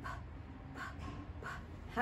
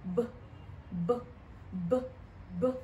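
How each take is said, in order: First: ب said as a P, airy burst, unvoiced; p sound. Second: ب repeated, lips closed, no puff of air; b sound. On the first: Teacher demonstrates the P puff of air. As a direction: push air out on ب. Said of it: "البي اللي بتعمل". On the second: Teacher drills the B sound for kids. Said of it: "الساوند بتاع ال". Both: Shown as a demonstration.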